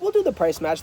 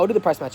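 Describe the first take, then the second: First: It is said in a warm, kind tone. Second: It is said in a dismissive, offhand tone. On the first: The speaker genuinely understands. The speaker calls it right. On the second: The speaker doesn't really care. The speaker calls it wrong.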